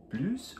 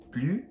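First: Plus with the final S sounded, plooss; S pronounced. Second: Plus with the S dropped, ploo; silent S. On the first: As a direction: say plus ending in a clear S. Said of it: "Quando eu devo pronunciar o S". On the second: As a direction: say plus with no final sound. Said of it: "som de plus sem o S". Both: Shown as a demonstration.

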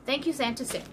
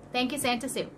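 The two takes are said the same way.

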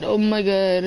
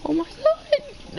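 First: Said in the usual way. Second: Squeaky high cracked oh my god, dragged out slowly; the voice breaks way up on every word; puberty crack that jumps into a squeak. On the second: Real, not acted. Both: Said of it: "I heard you get a voice crack".

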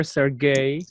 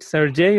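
First: "Sergey" with the g as in "get"; hard-g pronunciation. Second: "Sergey" with the g as in "gem"; soft-g pronunciation. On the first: Offering the other name option, "Sergey" said with hard g. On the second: Checking a participant's name, "Sergey" said with soft g. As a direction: say "Sergey" with a j sound, ser-JAY. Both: Shown as a demonstration. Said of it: "Is it Sergey or Sergey".

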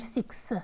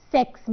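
First: "سكس" with a narrow i, like "siks"; the mistaken "سكس", closed vowel; wrong six. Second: "سكس" with an open vowel, ending on S; careful model "سكس", open vowel; correct six. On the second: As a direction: say "سكس" drawn out, one syllable. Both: Shown as a demonstration. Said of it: "مش سكس".

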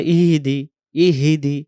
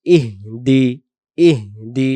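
First: "ইহিদি" as three syllables i-hi-di; mistaken extra vowel. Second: "ইহদি" as breathed ih, then di; broken into parts. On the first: Teacher imitating some readers' mistake, "ইহিদি" with extra vowel. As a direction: put an i after the h in "ইহিদি". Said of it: "কেউ বলে". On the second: Teacher breaking the word up, "ইহদি" as ih-di. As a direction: stop on a soundless h in "ইহদি", then দি. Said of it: "ভেঙে ভেঙে". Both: Shown as a demonstration.

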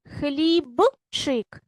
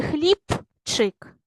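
First: "Хлібчик" with a clearly voiced б before ч; voiced consonant. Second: "хлібчик" with п instead of б; devoiced consonant. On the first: Teacher offering pupils the first choice, voiced consonant. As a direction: sound out б in "Хлібчик", slowly. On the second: Teacher offering pupils the second choice, devoiced consonant. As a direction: say "хлібчик" slowly as khlip-chyk. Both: Shown as a demonstration. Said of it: "чи хлібчик?".

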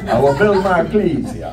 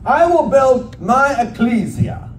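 First: Hammed-up Transylvanian count voice through a laugh; mock Transylvanian accent. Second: "ecclesia" said slowly as eh-KLEE-zee-uh; careful pronunciation. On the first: Preacher joking ecclesia sounds Transylvanian, mock Transylvanian accent. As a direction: joke the word "ecclesia" in a Transylvanian vampire accent. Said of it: "Sounds kinda like Transylvania".

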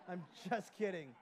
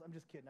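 First: Louder, laughing it off. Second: Said in the usual way. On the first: Real, not acted. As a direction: chuckle through the words. Repeated with a laugh.

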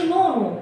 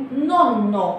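First: نونو with a short single n; نونو said without doubling the n; wrong single n. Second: نونو with the n held long, like a shadda; doubled n. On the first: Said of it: "لازم نسترس عليهم في النطق، ما نقولش". (نونو بنون واحدة خفيفة) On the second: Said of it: "كأن عليهم شدة كده زي العربي". (نونو بنون مشددة) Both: Shown as a demonstration.

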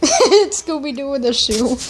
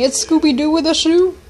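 First: Laughing. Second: Said in the usual way. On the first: Real, not acted. Laughing at his own pun.

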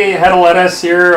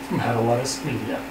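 First: Louder, punchy host announcement; hammy presenter intro. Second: Lower, much softer trailer voice; hushed dramatic announcement. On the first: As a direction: boom out the show name. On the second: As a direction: drop it down like a teaser. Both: Acted. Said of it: "dramatic reading".

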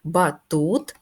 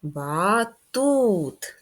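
First: "Батут" louder, with weight on "тут"; stress on second syllable. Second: "Батут" stretched long on "ту"; drawn-out second-syllable stress. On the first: Teacher testing the stress for children, "Батут" firmly on "тут". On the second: Teacher showing children the stress, "Батут" drawn out on "тут". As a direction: call out "Батут" slowly, holding the second syllable. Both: Shown as a demonstration. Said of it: "Наголос на другий склад".

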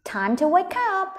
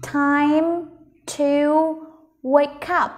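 First: Said in the usual way. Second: "Time... to... wake up", a long pause after each word. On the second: Shown as a demonstration. (đọc rời từng từ "Time to wake up") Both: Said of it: "Ok, mình cùng đọc nhé".

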